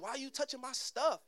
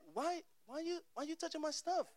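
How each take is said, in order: First: The voice is low and deep. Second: The voice is raised and high-pitched. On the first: "I don't say it with a lot of bass" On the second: "the octave goes up. So I'll be like, ... Like that, right? Like this"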